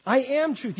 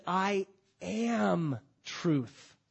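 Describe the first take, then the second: First: "I am truth" shouted higher and louder; Jesus declaring it, loud to the crowd; loud proclamation. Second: "I am truth" stretched very slow, each word held; Jesus declaring who he is, very slowly; drawn-out proclamation. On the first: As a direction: ring out "am" with full force. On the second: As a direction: let "am" hang long and slow. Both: Acted. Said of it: "Jesus said".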